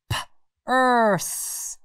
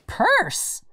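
First: "P-erse" split after P, the rest stretched; "P-erse" segmented with a lingering final S; sounded-out word. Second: Said in the usual way. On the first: Shown as a demonstration. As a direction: say "P-erse" as P, pause, long urse. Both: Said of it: "Does purse end with".

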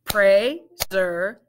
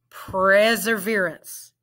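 First: "Perseverance" broken into parts; syllable by syllable; split into syllables. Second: "Perseverance" said smoothly as one word; blended "Perseverance". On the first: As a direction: segment "Perseverance". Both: Shown as a demonstration. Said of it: "Let's blend it".

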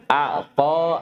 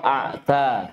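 First: Heavy, dark T in أعطى; emphatic ṭā'. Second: Thin, front T in أعتى; light tā'. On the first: Teacher leads class reading together, emphatic T. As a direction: say أعطى with a backed T and darkened vowel. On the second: Teacher leads class reading together, light T. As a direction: say أعتى with a plain dental T. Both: Shown as a demonstration. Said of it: "فرقوا بين الطاء والتاء".

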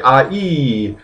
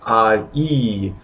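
First: Ah, ee said with a small gap between; ah, then ee, not joined; vowels with a pause. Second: Ah then ee, split apart; two vowels, not a glide; two separate vowels. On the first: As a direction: separate ah and ee with a break. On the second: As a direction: say ah and ee as two sounds. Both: Shown as a demonstration. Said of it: "taking a little pause to separate that".

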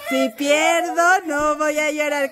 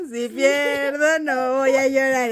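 First: Slow pledge broken by laughter; can barely say "pierdo" for giggling; laughing through the pledge. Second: Said in the usual way. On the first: Shown as a demonstration. Mother repeats the pledge to her kid, laughing. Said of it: "repite lo que dijimos". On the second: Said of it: "¿Cómo?".

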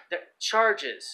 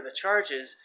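First: "charges" repeated louder, with weight; stress on charges. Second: Said in the usual way. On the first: Real, not acted. Explaining a legal wordplay to listeners, stress on "charges". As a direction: lean firmly on "charges" to point out the word.

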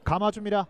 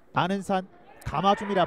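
First: Said in the usual way. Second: Excited call. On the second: Real, not acted. Live free kick call.

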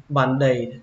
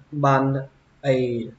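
First: "band-aid" joined as ban-day; "band-aid" with d starting the second syllable; linked d. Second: "band-aid" split as ban, pause, ay; separated "band-aid" with a gap before the second vowel; unlinked reading. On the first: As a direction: link the d of "band-aid" onto the vowel, one smooth word. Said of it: "các bạn nối chữ". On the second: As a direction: say "band-aid" in two separate pieces, no linking d. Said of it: "Cách thứ hai dễ đọc hơn thì các bạn nối". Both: Shown as a demonstration.

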